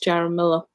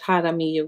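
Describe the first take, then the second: First: The name is said with English pronunciation. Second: The name is said with Spanish pronunciation. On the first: "but in English" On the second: "In Spanish"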